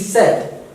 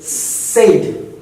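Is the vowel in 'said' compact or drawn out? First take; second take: compact; drawn out. First: The vowel is short, narrow and compact. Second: The vowel is wide and drawn out. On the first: The speaker calls it right. "The actual pronunciation is said, S E D" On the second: The speaker calls it wrong. "some of the experts pronounce it in a wrong way"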